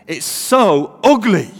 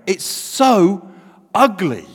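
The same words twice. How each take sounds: First: Loud, drawn-out Mancunian accent. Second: Said in the usual way. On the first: Shown as a demonstration. Preacher redoing his punchline for laughs, Mancunian accent. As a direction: lean slowly into a broad Mancunian. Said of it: "say that with a Mancunian accent". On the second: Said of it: "you should really only say that".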